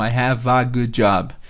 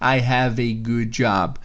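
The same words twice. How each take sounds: First: The article is pronounced as a short 'uh'. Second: The article is pronounced as a full 'ay'. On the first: It is the usual everyday form. "noventa e oito vírgula nove por cento das vezes você vai ouvir o a mesmo" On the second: It sounds very formal. "esse a, é, como artigo, ele soa, soa muito formal"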